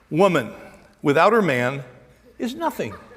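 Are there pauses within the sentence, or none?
none. It flows with no pauses inside.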